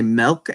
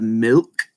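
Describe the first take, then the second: First: Milk said as "melk"; own mispronunciation. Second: Milk with a short "ih" vowel; intended pronunciation. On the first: Explaining a speech impediment, milk mispronounced as melk. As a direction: swap the vowel in milk to "eh". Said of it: "I say milk instead of milk". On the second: Showing the intended word despite speech impediment, careful milk. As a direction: say milk carefully, not as melk. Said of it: "instead of milk". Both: Shown as a demonstration.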